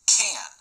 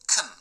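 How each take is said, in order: First: The word has a full, clear vowel. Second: The word has a short, reduced vowel. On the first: The word is stressed in the sentence. "the word can has strong pronunciation, which means that we pronounce it like can" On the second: The word is unstressed in the sentence. "the word can has weak pronunciation and sounds like can"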